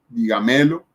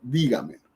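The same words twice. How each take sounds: First: The stress falls after the first syllable. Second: The stress is on the first syllable. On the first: The speaker calls it wrong. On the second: The speaker calls it right.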